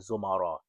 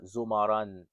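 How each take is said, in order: First: The word ends on an open vowel. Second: The word ends with an added n sound. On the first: "you could just say zumara" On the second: "pronounce it with like the zumaran"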